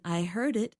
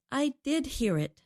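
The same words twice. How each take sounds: First: Said in the usual way. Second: "did" raised and stretched, then falling away; stress on DID. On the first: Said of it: "Instead of saying". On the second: Shown as a demonstration. Co-host shows listeners the stronger version, stress on "did". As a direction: punch "did" to insist. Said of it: "I said".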